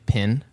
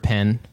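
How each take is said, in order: First: The vowel sounds like the 'i' in 'bit'. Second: The vowel sounds like the 'e' in 'bed'. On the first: The speaker calls it wrong. "it's common in the South to hear it say pin" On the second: The speaker calls it right. "the word pen, P E N"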